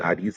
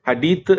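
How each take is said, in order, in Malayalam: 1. വാക്ക് അവസാനിക്കുന്നത് s ശബ്ദത്തിലാണ്. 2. വാക്ക് അവസാനിക്കുന്നത് th ശബ്ദത്തിലാണ്. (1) "ഹദീസ് അല്ല" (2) "ഹദീത്ത് എടുത്തിട്ട്"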